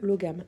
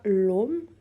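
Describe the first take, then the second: First: It is said the French way, with a g sound. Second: It is said the Old Irish way, without the g. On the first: "je le prononce à la française ici" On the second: "la prononciation en irlandais archaïque"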